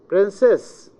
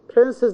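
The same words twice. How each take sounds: First: The stress is on the second syllable. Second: The stress is on the first syllable. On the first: The word stands alone. "The second syllable" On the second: The word comes before a name. "the stress moves to the beginning"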